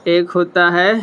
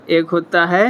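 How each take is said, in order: Both takes have the same delivery.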